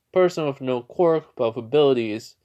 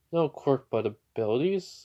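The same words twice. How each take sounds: First: Louder, spelling out "no quirk but with abilities"; careful question. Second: Pondering repeat, lifting on "abilities"; puzzled echo. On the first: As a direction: put weight on "quirk" and "abilities". Fanboy puts a question. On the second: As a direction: muse it back, "abilities" rising as a question. Hero echoes the question, pondering. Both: Retold or imitated.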